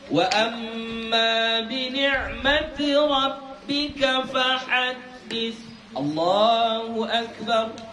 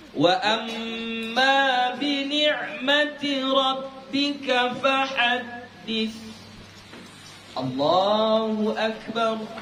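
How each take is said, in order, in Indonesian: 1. Langsung tersambung tanpa jeda. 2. Jeda panjang datang sebelum frasa terakhir. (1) "Jangan langsung ... Enggak begitu" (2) "Yang disunnahkan berhenti dulu"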